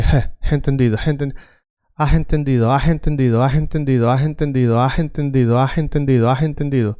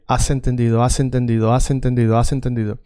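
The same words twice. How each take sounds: First: "has entendido" with an English breathy H; breathy H at the start of "has"; voiced English H. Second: "has entendido" with a silent H, spoken as "as"; "has" said as a plain "as", with no breath at the start; silent Spanish H. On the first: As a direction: sound the H in "has" like English "have". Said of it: "here I want you to say". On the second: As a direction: drop the H in "has", Spanish style. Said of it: "Okay, now say". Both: Shown as a demonstration.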